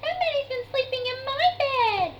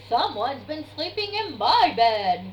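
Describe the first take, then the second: First: It is cried in Baby Bear's voice. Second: It is growled in Daddy Bear's voice.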